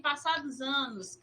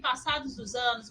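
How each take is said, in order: First: The word 'os' is dropped and merged. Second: The word 'os' is clearly pronounced.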